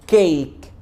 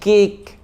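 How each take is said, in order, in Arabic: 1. الحركة صوت 'ay' طويل. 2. الحركة ليست صوت 'ay' طويل. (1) "فالكلمه دي اسمها كيك" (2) "مش كيك"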